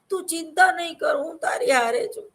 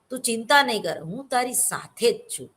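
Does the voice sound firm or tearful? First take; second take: tearful; firm. First: It is said in a weepy, crying voice. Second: It is said in a firm, weighty voice. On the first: The speaker sounds weak and upset. The speaker calls it wrong. "રોતા રોતા ના બોલાય ... એવું ના બોલાય" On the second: The speaker gives courage and support. The speaker calls it right. "તમારે એને હિંમત આપવાની છે ... એક વજન હોવું જોઈએ"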